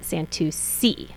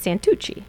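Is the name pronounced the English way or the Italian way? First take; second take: English; Italian. First: The name is said with an English pronunciation. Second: The name is said with an Italian pronunciation. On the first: This is the family's everyday form. "if you want to say it in English" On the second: This is the name's original form. "if you want to be fancy and you want to say my name in Italian"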